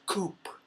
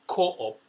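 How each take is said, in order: First: It is said as one long syllable. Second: It is said as two separate syllables. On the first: This is how local people say it. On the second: This is the speaker's own way of saying it.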